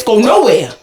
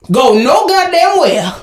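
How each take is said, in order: First: Said in the usual way. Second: Slow, spaced-out "no goddamn where"; emphatic repeat. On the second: Real, not acted. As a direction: stretch each word of "no goddamn where" for emphasis.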